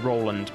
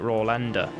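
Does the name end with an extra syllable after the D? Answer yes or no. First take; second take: no; yes. First: The name ends on the D sound. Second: The name ends with an extra syllable after D. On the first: "It might just be Roland" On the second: "it has an E, so it might be like Rolander"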